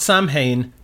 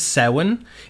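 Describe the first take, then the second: First: The word is said with a non-Irish pronunciation. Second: The word is said with the Irish pronunciation. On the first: The speaker calls it wrong. "It is not Samhain" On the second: The speaker calls it right. "that is Samhain"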